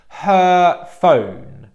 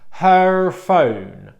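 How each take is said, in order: First: The vowel in 'her' is held steady and long. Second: The vowel in 'her' shifts as it is said. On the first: The speaker calls it right. "And the correct pronunciation" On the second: The speaker calls it wrong. "This is going to be the bad pronunciation"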